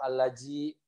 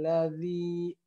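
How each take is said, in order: First: The middle consonant is a j sound. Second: The middle consonant is a soft th sound. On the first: The speaker calls it wrong. "atau alaji" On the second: The speaker calls it right. "ini huruf zal"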